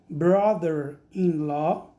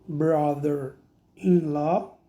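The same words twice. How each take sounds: First: Slow careful "Brother-in-law"; slow model word. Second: Very slow "Brother-in-law"; slower repeat. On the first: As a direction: say "Brother-in-law" slowly, rising. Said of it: "teacher models the word". (pronúncia pausada de "Brother-in-law") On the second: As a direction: draw out "Brother-in-law" even more. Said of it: "teacher repeats slower". (repetição mais lenta de "Brother-in-law") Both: Shown as a demonstration.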